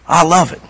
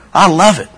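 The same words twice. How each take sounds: The two takes are said the same way.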